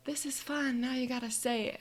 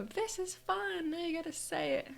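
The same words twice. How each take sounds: First: Higher, playful mom voice; mom's catchphrase. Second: Very high, sing-song excitement; gleeful echo. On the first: Mom saying her usual fun catchphrase, playful imitation. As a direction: lightly imitate a cheery mom, pitched up. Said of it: "my mom always goes". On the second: Daughter repeating mom's catchphrase back to her, gleeful echo. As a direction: echo it back much higher, drawing out the words. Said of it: "And I go". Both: Retold or imitated.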